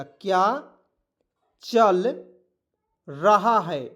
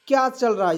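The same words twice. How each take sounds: First: क्या, चल, रहा है spaced apart with pauses; word by word dictation. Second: Said in the usual way. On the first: Shown as a demonstration. Teacher dictates क्या चल रहा है to students, word by word. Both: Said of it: "याद रखिएगा".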